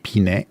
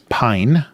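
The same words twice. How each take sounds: First: It is said with Japanese-style separate syllables. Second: It is said as one English-style syllable. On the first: "it would be Pine if it was Japanese" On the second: "they want it to just be pronounced the English way"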